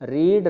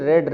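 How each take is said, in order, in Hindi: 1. स्वर लंबा है, 'reed' जैसा। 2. स्वर छोटा है, 'red' जैसा। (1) "रीड फर्स्ट फॉर्म है" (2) "उसके बाद रेड रेड"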